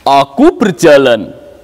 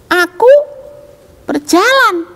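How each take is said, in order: First: It is said in a big, heavy voice. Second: It is said in a small, thin voice. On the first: "sekarang suara besar" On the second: "suara yang kecil"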